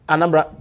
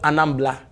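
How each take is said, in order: First: It is pronounced with an R sound. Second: It is pronounced with an L sound.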